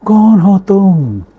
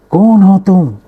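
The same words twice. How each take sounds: First: Slow, high, loud echoing call; the words thrown back from far off; drawn-out echo from the mountains. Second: High, loud angry shout; a boy yelling at an unseen mocker; child shouting at the mountains; angry demand. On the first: Acted. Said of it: "आवाज़ गूंजती है पहाड़ों के दरमियान". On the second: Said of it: "बच्चे ने गुस्से से पूछा".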